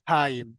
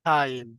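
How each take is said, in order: No difference in how they are said.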